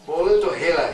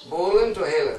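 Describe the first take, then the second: First: Bolan to hela, louder and punched; emphatic recitation. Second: Said in the usual way. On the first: Shown as a demonstration. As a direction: hit Bolan to hela hard. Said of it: "Hela means just like". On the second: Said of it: "Bolan means talking".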